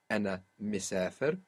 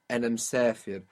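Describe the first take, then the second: First: The short i after the m is pronounced. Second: The short i after the m is dropped.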